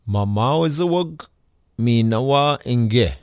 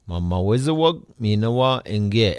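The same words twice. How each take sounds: First: It is said slowly with every sound. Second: It is said at a quicker normal speed.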